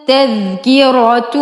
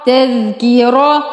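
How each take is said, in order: First: Slow, drawn-out تذكرة ending in "-atun"; تذكرة with dammatain. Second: تذكرة with no "tun" ending, cut at "ra"; تذكرة ending in fatha. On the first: Teacher reading the completed word, تذكرة said "tadhkiratun". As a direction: say تذكرة as "tadhkiratun", sounding the final "tun". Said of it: "تا ضمتين تن". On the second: Teacher joining the syllables so far, تذكرة said "tadhkira". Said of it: "را فتحة را". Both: Shown as a demonstration.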